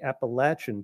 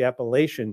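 First: The word has the southern regional pronunciation. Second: The word has the northern regional pronunciation. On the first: The speaker is from south of the Potomac. "If you are from anywhere south of the Potomac River, it's the Appalachian Trail" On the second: The speaker is from north of the Potomac. "If you're anywhere north of the Potomac River, it's the Appalachian Trail"

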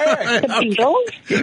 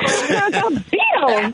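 First: It ends with a rise, like a question. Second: It ends with a fall, like a statement.

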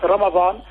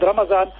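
First: It is said in the original pronunciation. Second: It is said in the Indo-Pak subcontinent pronunciation. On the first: This is the actual form of the word. "the actual word would be what Ramadan" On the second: This is how people in one region say it. "the Indo-Pak subcontinent, they will use the word Ramadan"

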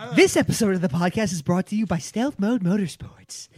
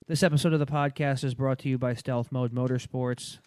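First: It is read with an interested, lively tone. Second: It is read in a flat monotone.

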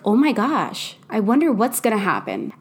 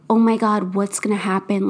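First: It sounds curious and hopeful. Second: It sounds scared and anxious.

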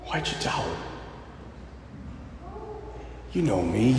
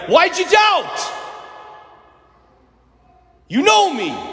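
First: It is said in a gentle, loving tone. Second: It is said in a harsh, scolding tone.

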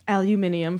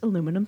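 First: It is said with a British pronunciation. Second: It is said with an American pronunciation.

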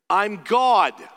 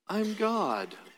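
First: It is said in a blunt, stern tone. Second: It is said in a nicer, gentle tone.

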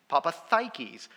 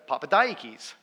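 First: The consonant before -akis is a th sound. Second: The consonant before -akis is a d sound. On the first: "There's a D there, Dad. Delta, D. I don't get TH out of that" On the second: "my English ears can't hear Daikis. Is it ah or I?"

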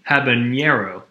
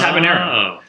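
First: The middle consonant is pronounced as 'ny'. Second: The middle consonant is pronounced as plain 'n'. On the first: The speaker calls it wrong. "That's what's called hyper pronunciation" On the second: The speaker calls it right. "It's just habanero"

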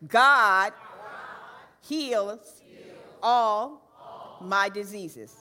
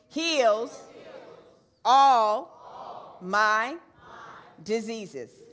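First: The word 'God' is stressed most. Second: The word 'heals' is stressed most. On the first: "Let's say God with some fervor" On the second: "Now let's put emphasis on heals"

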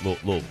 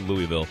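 First: The syllables are slurred together, as if mumbled. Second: Each syllable of the word is said fully. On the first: This is how locals say the city name. The speaker calls it right. "It's Louisville. ... just put a bag of marbles in your mouth" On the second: This is how outsiders say the city name. The speaker calls it wrong. "people say Louisville, which is not how the locals pronounce it"

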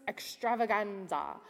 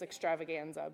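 First: The word is said in a playful, exaggerated way. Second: The word is said in a plain, ordinary way. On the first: "we don't have to say it like that" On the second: "It's just extravaganza"

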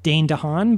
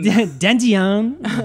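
First: The name is said plainly, in an American accent. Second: The name is said in an imitated French accent.

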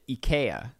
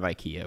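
First: IKEA is pronounced the Swedish way. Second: IKEA is pronounced the American way. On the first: "they pronounce it IKEA there" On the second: "instead of IKEA"

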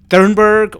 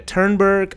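First: The name begins with a th sound. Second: The name begins with a plain t sound. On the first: "is the TH is pronounced like the" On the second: "or is the H silent? Is it ta?"

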